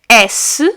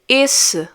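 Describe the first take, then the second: First: The first vowel is open. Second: The first vowel is closed. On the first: It names the letter S. "So we have an open sound once more" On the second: It means that one. "When I pronounce it as is without the accent on top, I'm actually saying that one"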